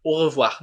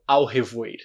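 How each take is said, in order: First: "au revoir" as o-ruh-vwar; French "au revoir", au as one vowel; correct au revoir. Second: "au revoir" misread as ow-heh-voir; mock beginner's "au revoir" with split vowels; wrong spelling reading. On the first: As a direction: begin "au revoir" on a pure oh, end on vwar. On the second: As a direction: say "au revoir" as written, au as ow, oi as oy. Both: Shown as a demonstration. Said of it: "não au revoir".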